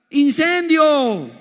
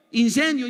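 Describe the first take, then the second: First: Stretched-out loud, high cry of fire; shouted punchline. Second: Said in the usual way. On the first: Acted. Preacher shouting ¡Incendio! to the congregation, loud and drawn out. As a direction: blast the word ¡Incendio! slowly and loud like an alarm. Climax of the car bomb joke.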